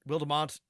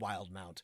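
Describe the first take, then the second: First: The middle E is sounded as a syllable. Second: The middle E is silent. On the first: The speaker calls it wrong. "it looks like it looks like Wildemount" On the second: The speaker calls it right. "I think it's just Wildemount"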